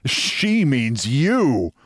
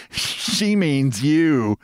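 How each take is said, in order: First: YOU swung up high, then falling; slow, higher "you" in retort; mocking echo. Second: SHE and YOU drawn out slowly; slow, raised teasing on "you"; gleeful jab. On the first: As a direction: throw it back slowly, leaning on "you". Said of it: "Now I laughed". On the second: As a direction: stretch "She means you", higher, falling at the end. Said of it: "who laughed". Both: A narrator's reading.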